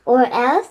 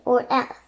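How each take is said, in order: First: Louder scornful echo of the threat; mocking repeat. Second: Said in the usual way. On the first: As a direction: throw the words back with scorn. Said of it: "said the Raven King".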